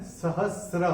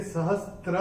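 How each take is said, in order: First: "सहस्र" with sr, no t; correct pronunciation. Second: "सहस्त्र" with an extra t before r; wrong pronunciation. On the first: Teacher gives the pronunciation, "सहस्र" without t. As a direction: say "सहस्र" carefully, s gliding straight into r. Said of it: "उच्चारण है सहस्र". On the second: Teacher shows what it is not, "सहस्त्र" with t. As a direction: say "सहस्त्र" with str at the end. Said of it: "नहीं है।". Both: Shown as a demonstration.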